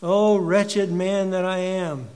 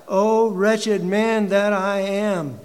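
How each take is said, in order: First: Echoed lament. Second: Slow, loud, higher anguished lament; anguished cry. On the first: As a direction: let the cry sink back down. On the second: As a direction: wail it out in despair. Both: Acted. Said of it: "He cries out".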